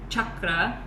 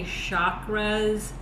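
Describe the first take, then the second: First: It uses the Indian pronunciation. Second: It uses a different, non-Indian pronunciation. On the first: It means a wheel of energy. "In the Indian sense, it's, it is a cha-cha-cha, chakra" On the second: It has a slightly different meaning. "Some people say chakras, um, and that is uh, a sort of different pronunciation"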